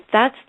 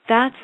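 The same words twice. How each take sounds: The two takes are said the same way.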